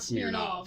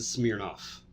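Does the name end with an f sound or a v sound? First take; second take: v; f. First: The name ends with a v sound. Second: The name ends with an f sound. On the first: The speaker calls it wrong. "not Smirnov" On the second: The speaker calls it right. "you pronounce it Smirnoff"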